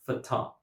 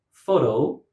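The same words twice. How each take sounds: First: "fata" as fuh-TAH; "fata" with weak fuh, strong TAH; second-syllable stress. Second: "photo" as FOH-to; "photo" with strong FOH, weak to; first-syllable stress. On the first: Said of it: "stress on the second syllable". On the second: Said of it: "stress on the first syllable". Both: Shown as a demonstration.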